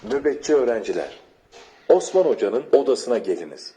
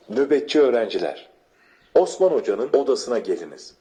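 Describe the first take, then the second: No difference in how they are said.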